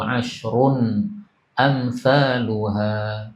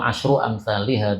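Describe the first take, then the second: First: First word ends in -un; second has -lu-. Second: First word ends in -u; second has -li-.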